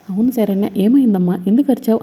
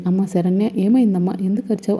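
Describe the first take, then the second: First: Worried. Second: Said in the usual way. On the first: A narrator's reading. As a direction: ask in an anxious rush, pitch climbing. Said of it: "కంగారు పడుతూ ఉంటారు". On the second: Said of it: "ఆనంద ఇలా అంటూ ఉంటుంది".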